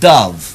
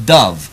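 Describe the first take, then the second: First: The vowel matches the one in cup. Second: The vowel matches the one in cup.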